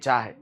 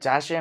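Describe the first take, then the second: First: The word is said with an 'h' sound. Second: The word is said with an 'sh' sound. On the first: "આપણે એમ બોલીએ" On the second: "જાશે એમ નહીં"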